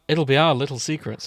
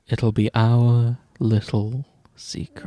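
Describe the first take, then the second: First: The line sounds the least creepy of all. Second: The line sounds even creepier than before. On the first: The speaker calls it right. "that's as good as it's gonna fucking get" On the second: The speaker calls it wrong. "That's that's worse"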